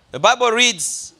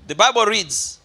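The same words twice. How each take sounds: The two takes are said the same way.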